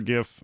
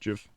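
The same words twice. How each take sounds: First: It starts with a hard G sound. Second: It starts with a soft J sound. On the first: "I prefer GIF" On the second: "Like George"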